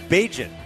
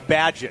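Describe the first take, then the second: First: The name rhymes with agent. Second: The name does not rhyme with agent. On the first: The speaker calls it right. "But it's Bagent" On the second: The speaker calls it wrong. "they're saying Bagent"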